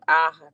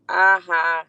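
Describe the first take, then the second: First: Taunting aha; mocking aha. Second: Taunting aha, punched; mocking aha. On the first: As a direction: laugh it at her. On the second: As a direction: throw a smug aha. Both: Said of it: "I said".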